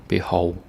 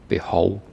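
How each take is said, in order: No difference in how they are said.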